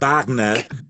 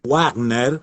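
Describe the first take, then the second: First: The name is said with German sounds. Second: The name is read with Spanish sounds. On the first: The speaker calls it right. "y que es Richard eh, Wagner" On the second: The speaker calls it wrong. "y que no es Wagner"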